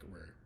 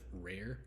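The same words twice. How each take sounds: First: The R sounds run together and blur. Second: Both R sounds are pronounced clearly and separately. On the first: "it's gonna sound more um, jumbled, more mixed together" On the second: "I'll try to really pronounce it correctly here"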